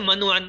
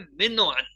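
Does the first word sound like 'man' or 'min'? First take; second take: man; min. First: The first word is said as 'man'. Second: The first word is said as 'min'. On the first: The speaker calls it wrong. "ये हम कहते हैं ना मन व अन, उर्दू में ये गलत है" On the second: The speaker calls it right. "लफ्ज है मिन व अन, क्योंकि हरफ जर मिन नहीं है"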